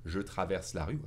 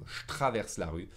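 First: Said in the usual way. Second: "je traverse la rue" said as "shtraverse la rue"; sh contraction. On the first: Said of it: "You can say it". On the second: Shown as a demonstration. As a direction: start "je traverse la rue" on sh joined to t. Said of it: "end up with a sh sound".

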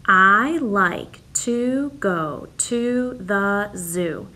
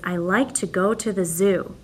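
First: Very slow, each word set apart; slow counting read. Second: Said in the usual way. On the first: Shown as a demonstration. Teacher reads slowly so the class counts each word. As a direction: drag it out so kids can count words. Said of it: "count the words in your sentence". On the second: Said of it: "So my first sentence is".

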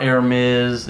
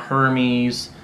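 First: Hermes as "AIR-mez", silent H; Hermes mispronounced French-style as air-MEZ; wrong pronunciation. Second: Hermes as "HER-meez", long ee ending; Hermes mispronounced as HER-meez; wrong pronunciation. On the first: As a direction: drop the H in Hermes, open with "air". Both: Shown as a demonstration. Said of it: "pronounce this incorrectly".

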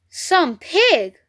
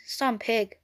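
First: SOME PIG proclaimed higher, with a falling PIG; emphatic announcement. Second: Murmur. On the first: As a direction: announce "Some pig" with weight on both words. Narrator reveals the web's message. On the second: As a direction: murmur it under your breath. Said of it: "he murmured the words". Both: A narrator's reading.

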